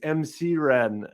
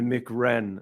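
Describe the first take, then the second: First: MC is said as two separate letters. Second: MC is said as the single word Mick. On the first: The speaker calls it right. "It's M C Ren" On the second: The speaker calls it wrong. "they thought his name was [name]"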